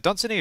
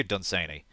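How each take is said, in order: First: Dunsany with an unstressed "suh" in the middle; Dunsany, middle syllable reduced to a quick "suh"; short middle vowel. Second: Dunsany with "say" in the middle; Dunsany, middle syllable rhyming with "day"; long A pronunciation. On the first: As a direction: say Dunsany as DUN-suh-nee. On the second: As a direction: say Dunsany as dun-SAY-nee. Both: Shown as a demonstration. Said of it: "forget how that's pronounced".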